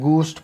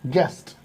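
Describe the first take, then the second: First: The g is followed by an 'oo' vowel. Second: The g goes straight into an 'e' vowel. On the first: The speaker calls it wrong. "ना ही गूस्ट पढ़ेंगे" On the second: The speaker calls it right. "यू की आवाज नहीं निकलेगी"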